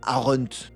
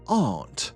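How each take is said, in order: First: The word is said with two syllables. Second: The word is said with one syllable. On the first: The speaker calls it wrong. "On dit pas aren't" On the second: The speaker calls it right. "se prononce en une syllabe"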